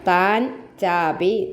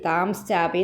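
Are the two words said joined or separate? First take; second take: separate; joined. First: The two words are said separately, unjoined. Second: The two words are joined with an added sh sound. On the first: "പിരിച്ചു പറയണമെന്നുള്ളവർക്ക്" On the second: "താംശ്ചാപി എന്ന് വായിച്ചാൽ തെറ്റൊന്നുമല്ല"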